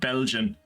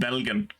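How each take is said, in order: First: It is said like the nationality word. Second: It is said unlike the nationality word. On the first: It could be confused with a real group of people. The speaker calls it wrong. "and not Belgian" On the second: It names the in-game group, not real people. The speaker calls it right. "it's pronounced Belgian"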